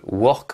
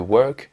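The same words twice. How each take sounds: First: The r is a French throaty r. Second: The r is an English r. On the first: The speaker calls it wrong. "si vous avez des problèmes avec la prononciation du R, vous dites pas R, mais euh, re" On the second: The speaker calls it right. "au lieu de work"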